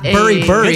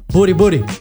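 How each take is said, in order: First: The middle consonant is an English-style r. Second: The middle consonant is a quick tap. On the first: The speaker calls it wrong. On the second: The speaker calls it right. "I'm going to pronounce it right this time"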